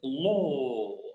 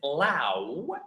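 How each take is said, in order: First: The vowel is a plain 'aw'. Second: The vowel glides like 'ow'. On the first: The speaker calls it right. "but we pronounce it as law" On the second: The speaker calls it wrong. "We don't pronounce it, this as lao"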